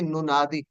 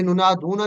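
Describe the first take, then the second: First: नुनादी ending short in -दी, the correct answer; correct form. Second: नुनादूना with the long ending -दूना, marked as the form to avoid; wrong form. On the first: Teacher gives students the correct form नुनादी, clearly spoken. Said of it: "बल्कि नुनादी". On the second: Teacher shows students the wrong form नुनादूना, clearly spoken. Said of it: "ये नुनादूना नहीं कहना". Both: Shown as a demonstration.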